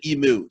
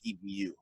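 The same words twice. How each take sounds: First: The second syllable sounds like 'moo'. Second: The second syllable sounds like 'mew'. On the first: The speaker calls it wrong. "don't say emu to an Australian; they get really mad" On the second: The speaker calls it right. "It's emu"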